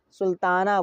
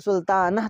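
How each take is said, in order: First: सुल्ताना ending in open aa; silent final h. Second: सुल्तानह ending in short a plus h; final h wrongly sounded. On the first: Teacher showing learners the accepted form, h silent. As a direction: end सुल्ताना on long aa, no h. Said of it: "बोलते हैं". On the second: Teacher showing learners what not to say, h sounded. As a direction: end सुल्तानह on an audible h. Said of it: "तो नहीं बोलते हैं". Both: Shown as a demonstration.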